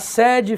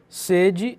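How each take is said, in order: First: The stressed E is an open vowel. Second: The stressed E is a closed vowel. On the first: It means headquarters. "Esse é aqui tem o som aberto" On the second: It means thirst or desire. "esse é aqui tem um som mais fechado"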